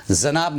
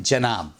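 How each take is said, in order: First: 'जनाब' with z in place of j; wrong pronunciation. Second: 'जनाब' with a plain j; correct pronunciation. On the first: Teacher shows what not to say, mispronounced. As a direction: begin 'जनाब' on a z sound. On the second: Teacher gives the proper word, correctly pronounced. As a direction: begin 'जनाब' with j, not z. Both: Shown as a demonstration. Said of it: "जनाब ना बोलें".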